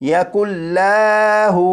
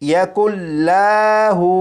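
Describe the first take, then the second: The two takes are said the same way.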